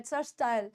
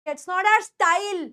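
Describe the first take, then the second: First: Style gliding low into "stai-yal"; correct pronunciation of style. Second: Style stretched into a mistaken "sta-eel"; wrong pronunciation of style. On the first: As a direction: say style softly and lower as "sta-yal". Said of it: "ये स्टाइल होता है". (style का सही उच्चारण "स्टायल") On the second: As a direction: say style with a full ee. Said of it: "ये स्टाइल नहीं होता". (style को गलत "स्टाईल" बोलते हुए) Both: Shown as a demonstration.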